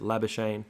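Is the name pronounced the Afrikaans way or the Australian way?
Australian. The name is said with an Australian English pronunciation. This is the casual local habit. The speaker calls it wrong. "Australians are a little bit lazy and just pronounce it"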